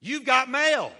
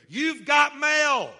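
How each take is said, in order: First: Announcing call. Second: Drawn out, very loud and high; slow booming announcement. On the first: Preacher announces the message. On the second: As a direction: boom it slowly to the whole church. Preacher's climactic announcement. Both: Acted.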